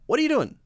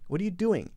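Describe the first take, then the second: First: The word 'doing' ends with a front n sound. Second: The word 'doing' ends with a back ng sound. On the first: "most people probably say, ... With the N, the front of the tongue comes up to block" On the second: "the back of the tongue is the one coming up"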